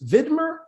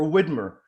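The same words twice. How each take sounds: First: Widmer said with an initial V, as Vidmer; Widmer with V sound. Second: Widmer said with an English W at the start; Widmer with W sound. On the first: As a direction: start Widmer with a German-style V. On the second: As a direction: round the lips for the W in Widmer. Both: Shown as a demonstration. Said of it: "correct me if I'm mispronouncing your name".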